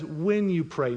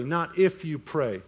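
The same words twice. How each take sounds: First: "When" stressed as the contrast word. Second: Slow, with "if" picked out; stress on IF. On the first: Preacher contrasting when with if, stress on "When". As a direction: lean on "When", let "you pray" fall. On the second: Preacher ruling out the other word, stress on "if". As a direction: lean on "if" to rule it out, slowly. Contrasts "if" with "when. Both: Shown as a demonstration.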